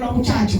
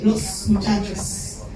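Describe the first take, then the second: First: The final s sounds are dropped. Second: The final s sounds are pronounced. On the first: This is how Dominicans speak. "los dominicanos que nos comemos las heces" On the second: This is the standard form. "en vez de"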